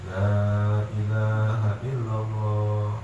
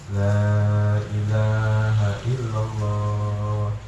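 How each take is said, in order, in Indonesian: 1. Diucapkan dengan lembut dan pelan. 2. Diucapkan dengan lembut dan pelan.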